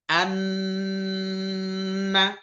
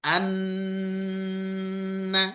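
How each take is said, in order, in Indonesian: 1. Huruf n dibaca rangkap dengan dengung. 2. Huruf n dibaca rangkap dengan dengung.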